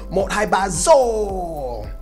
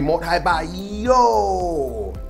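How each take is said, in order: First: The last word begins with a z sound. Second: The last word begins with a y sound. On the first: This is the northern pronunciation. "in Hanoi, Sapa, and in the north, you're going to hear" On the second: This is the central and southern pronunciation. "Hue City or go south, that is a soft D, so it's going to be pronounced more like a Y"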